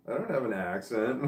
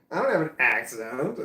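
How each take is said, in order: First: Said in the usual way. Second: Louder, laughing, mock outrage over the word accent; laughing protest. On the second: Real, not acted. Streamer protesting about the accent, laughing. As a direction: laugh through it in disbelief. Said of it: "What the fuck are you talking about".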